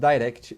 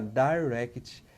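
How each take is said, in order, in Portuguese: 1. A palavra é dita rápido, soando português. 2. A palavra é dita devagar e com cuidado. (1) "Se falar rápido" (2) "tem que falar devagar"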